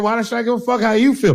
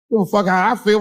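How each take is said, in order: First: "you" punched high, then falling; high-pitched retort hitting "you" hard; stress on YOU. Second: "I" picked out in a high-pitched retort; indignant line with the weight on "I"; stress on I. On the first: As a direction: throw the weight onto "you". Sets listener's feelings against own. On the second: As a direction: lean on "I" in "how I feel". Sets own feelings against listener's. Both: Acted.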